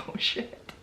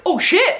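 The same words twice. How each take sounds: First: Whispered with no voice, caught out; hushed oh shit. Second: Higher, startled exclamation; surprised oh shit. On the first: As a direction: breathe it out as a nervous whisper. Cops fear they broke wrong door. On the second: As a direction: blurt it out as the realisation hits. Cops realise he's under bed. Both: Retold or imitated.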